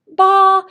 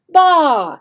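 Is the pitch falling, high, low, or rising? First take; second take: high; falling. First: The pitch stays high and level. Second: The pitch falls from high to low. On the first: "They have a high sound" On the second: "a falling sound, okay, falling tone"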